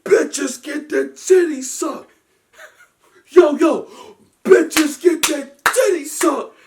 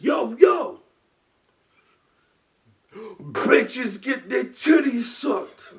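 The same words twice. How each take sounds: First: High, slow, loud and laughing; laughing repeat. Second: High, slow shouted rap line; mock rapper shout. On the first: Retold or imitated. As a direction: repeat the lyric in laughing disbelief. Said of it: "I said". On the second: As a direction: bellow it slowly like on stage. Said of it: "And he's like, shout".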